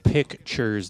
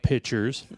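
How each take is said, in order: First: The k sound before the t is pronounced. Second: The k sound is dropped, like pitchers. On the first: The speaker calls it right. "It's called pictures" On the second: The speaker calls it wrong. "not pictures"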